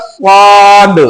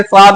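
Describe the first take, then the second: First: "स्वाद" heavy, with a long rounded aa; thick स्वाद. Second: "स्वाद" short, with a thin open aa; wrong thin स्वाद. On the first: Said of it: "क्या बोलना". (मोटा, लंबा "स्वाद") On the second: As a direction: say "स्वाद" lightly, without rounding. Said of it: "स्वाद नहीं बोलना". (पतला, छोटा "स्वाद") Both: Shown as a demonstration.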